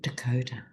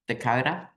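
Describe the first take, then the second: First: It is said carefully in a neutral accent. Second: It is said in a broad Australian accent. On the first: The speaker calls it right. "I'll try and say it nicely" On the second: The speaker calls it wrong. "an Australian accent kills it stone dead"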